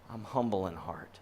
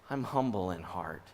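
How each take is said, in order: Both takes have the same delivery.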